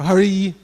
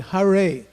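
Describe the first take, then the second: First: It sounds like the divine name Hari. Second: It sounds like neither Harry nor Hari. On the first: The speaker calls it wrong. "like in the Lord's name" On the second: The speaker calls it right. "must be pronounced properly"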